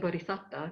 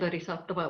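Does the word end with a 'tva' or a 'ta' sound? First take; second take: ta; tva. First: The word ends with a plain 'ta' sound. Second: The word ends with a 'tva' sound. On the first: This is the form the tradition uses. "we say bodhisatta because that's the Pali pronunciation" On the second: This is the form the tradition does not use. "we don't say bodhisattva"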